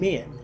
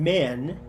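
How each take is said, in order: First: The vowel sounds like 'ih'. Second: The vowel sounds like 'eh'. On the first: "becomes I, as in men" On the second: "e, as in men"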